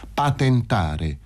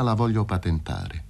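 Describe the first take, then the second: First: Slow, spelled-out "Patentare"; syllable by syllable. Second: Said in the usual way. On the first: A narrator's reading. Fazio repeats "Patentare" for Paroni, syllable by syllable. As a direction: draw out "Patentare" one syllable at a time. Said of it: "sillabò Fazio".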